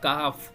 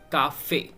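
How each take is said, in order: First: The word ends without a final vowel sound. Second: The word ends with a clear 'ay' vowel. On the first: The word is written without the accent mark. "अगर सिंपली हम इस वर्ड को लिखें तो ये फ्रेंच में पढ़ा जाएगा काफ" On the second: The word is written with the accent mark. "Accent आया हुआ है एग्यू एक्सेंट, तो that's why we pronounce काफे"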